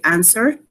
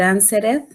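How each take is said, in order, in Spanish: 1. La terminación -ed se une a la palabra. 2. La terminación -ed es una sílaba extra. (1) "aquí tengo que decir" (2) "no voy a decir"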